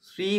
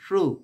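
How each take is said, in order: First: The syllable is said with an 'ee' vowel. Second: The syllable is said with an 'oo' vowel. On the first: The speaker calls it wrong. "শ্রী বলবো না" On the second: The speaker calls it right.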